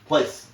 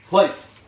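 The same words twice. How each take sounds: First: It is said in a lower voice. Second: It is said in a higher voice.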